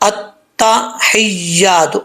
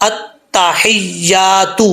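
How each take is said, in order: Both takes have the same delivery.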